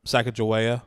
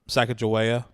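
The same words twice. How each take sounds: First: The name is said in an Americanized way. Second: The name is said in an Americanized way.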